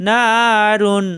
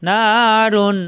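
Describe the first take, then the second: Both takes have the same delivery.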